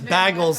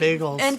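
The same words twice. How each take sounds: First: It is said with a Minnesota accent. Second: It is said with a standard accent. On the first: This is how the host says it. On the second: This is how it is usually said.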